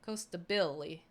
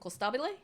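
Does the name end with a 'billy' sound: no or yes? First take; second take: yes; no. First: The name ends in a 'billy' sound. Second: The name does not end in a 'billy' sound. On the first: The speaker calls it right. "with the Brazilian accent ... it's more of a Billy" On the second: The speaker calls it wrong. "that's how I figured it was pronounced"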